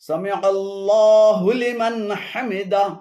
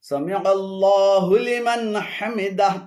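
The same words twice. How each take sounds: No difference in how they are said.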